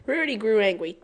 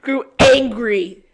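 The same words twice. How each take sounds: First: Said in the usual way. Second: Louder, slow "Grew angry" with mock fury; mock angry reread. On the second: Real, not acted. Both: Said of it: "Why did I say that?".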